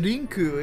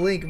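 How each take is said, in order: First: The name is said with Japanese sounds. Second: The name is said with English sounds. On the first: "but it's probably a Rinku" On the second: "we call him Link"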